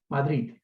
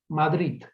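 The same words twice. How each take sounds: First: The final D is pronounced the Catalan way. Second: The same.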